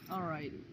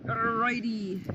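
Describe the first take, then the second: First: Low alrighty. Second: Bright alrighty. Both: Shown as a demonstration. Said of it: "change of energy".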